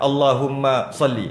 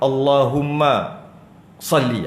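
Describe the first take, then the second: First: There is only a slight stop after Allahumma. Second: There is a clear stop after Allahumma. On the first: "dia macam tak berapa nak saktah sangat" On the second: "tu saktah nampak-nampak lah kan"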